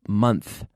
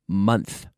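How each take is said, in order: No difference in how they are said.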